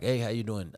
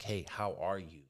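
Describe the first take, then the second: First: The greeting sounds quick and careless. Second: The greeting sounds warm and sincere.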